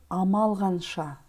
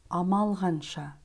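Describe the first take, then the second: Both takes have the same delivery.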